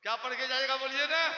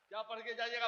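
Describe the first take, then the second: First: क्या पढ़ के जाइएगा asked louder and insistent; pressing question. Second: Said in the usual way. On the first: Shown as a demonstration. Preacher demanding the crowd answer him, louder.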